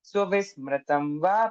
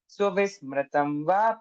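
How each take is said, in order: First: The 'i' vowel is kept short. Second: The 'i' vowel is kept short.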